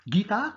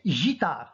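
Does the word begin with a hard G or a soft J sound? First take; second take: hard G; soft J. First: It begins with a hard G sound. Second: It begins with a soft J sound. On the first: The word is written with the letter U. "pour obtenir le G, pour dire gui, guitare" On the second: The word is written without the letter U. "Si on n'a pas écrit le U, qu'est-ce qu'on va prononcer? On va prononcer gitare"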